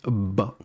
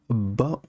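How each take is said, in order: First: The b sound is held long, doubled. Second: The b sound is held long, doubled.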